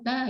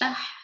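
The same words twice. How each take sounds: First: The final h sound is not heard. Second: The final h sound is clearly breathed out. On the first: The speaker calls it wrong. "itu nggak kebaca" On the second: The speaker calls it right. "biar H-nya kebaca"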